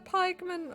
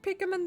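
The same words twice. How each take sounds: First: The first syllable sounds like 'pike'. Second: The first syllable sounds like 'pick'. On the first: The speaker calls it right. "They're called pikemen" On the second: The speaker calls it wrong. "I thought it's pronounced pikemen. You know, because you're picking"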